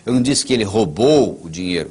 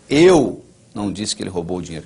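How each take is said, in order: First: The stress is on "roubou". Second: The stress is on "Eu".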